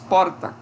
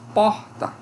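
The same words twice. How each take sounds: First: The r is a single quick tongue tap. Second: The r is a strong throaty sound. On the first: "em São Paulo... é comum surgir aqui um T E P" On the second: "Nós falamos porta"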